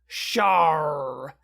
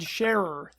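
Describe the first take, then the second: First: The name is said in a pirate-like voice. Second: The name is said in a plain voice. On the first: The speaker calls it right. "that was my best pirate librarian impression" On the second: The speaker calls it wrong. "I said Scherer"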